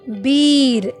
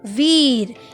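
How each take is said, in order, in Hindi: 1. यह शब्द 'b' ध्वनि से शुरू होता है। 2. यह शब्द 'v' ध्वनि से शुरू होता है। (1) "कुछ लोग इसे बोल देते हैं बीर, जो कि अशुद्ध शब्द है" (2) "शुद्ध शब्द है वीर"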